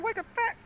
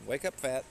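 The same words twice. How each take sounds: First: "Wake up, fat" squeaked very high and loud; squeaky high take. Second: Said in the usual way. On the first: Shown as a demonstration. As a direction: pitch it way up, cartoonish. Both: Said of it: "Totally fucked that up".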